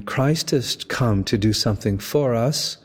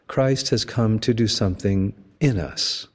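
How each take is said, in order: First: "for" lifted and held before "us"; stress on for. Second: "in" pressed and falling in "something in us"; stress on in. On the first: Preacher contrasting for and in, stressing "for". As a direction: lean on "for" in "something for us". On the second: Preacher contrasting for and in, stressing "in". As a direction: lean hard on "in" in "something in us". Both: Shown as a demonstration. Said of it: "Notice the difference between".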